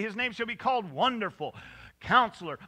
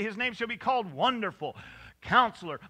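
First: There is a pause between Wonderful and Counselor. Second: The same.

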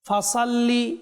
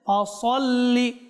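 First: The s is a plain, light s sound. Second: The s is a heavy, emphatic s sound. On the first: The speaker calls it wrong. "আপনি বলবেন ভুল হয়েছে, কেন আমি ফাসাল্লি বলেছি, এখানে কি সিন রয়েছে না সদ?" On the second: The speaker calls it right. "আপনি অবশ্যই দেখতে পাচ্ছেন সদ রয়েছে"

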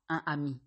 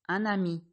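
First: No linking sound joins the two words. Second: A linking N sound joins the two words. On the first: The speaker calls it wrong. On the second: The speaker calls it right.

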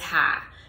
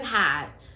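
First: The word ends without any T sound. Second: The word ends with a clear T sound.

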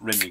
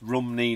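First: The first vowel sounds like 'ih'. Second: The first vowel sounds like 'uh'. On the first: The speaker calls it wrong. "not Rimney" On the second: The speaker calls it right. "it's Rumney"

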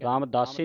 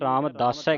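First: The word ends in an 'ee' vowel. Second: The word ends in an 'ai' vowel. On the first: The speaker calls it wrong. "ਨਹੀਂ ਕਹਿਣਾ" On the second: The speaker calls it right. "Ramdas ਹੈ ਕਹਿਣਾ, ਦਲਾਵਾਂ ਲੱਗੀਆਂ"

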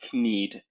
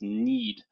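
First: The word starts with a sounded K before N. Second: The word starts with a plain N sound. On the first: The speaker calls it wrong. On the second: The speaker calls it right.

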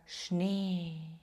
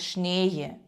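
First: The vowel stays long and steady. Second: The vowel glides into an extra sound. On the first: The speaker calls it right. "лишатися на одній лінії" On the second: The speaker calls it wrong. "не казати шніє"

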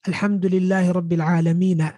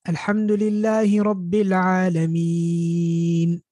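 First: The last word ends with an added a vowel. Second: The last word ends on a bare n sound. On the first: The speaker calls it wrong. "We don't say na at the end" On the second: The speaker calls it right. "نون at the end"

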